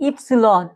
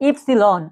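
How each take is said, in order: The two takes are said the same way.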